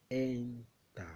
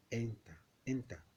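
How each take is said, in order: First: "enter" drawn out slowly as two parts, en and ter; syllable split. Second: Said in the usual way. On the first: Shown as a demonstration. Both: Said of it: "So that's two syllable word".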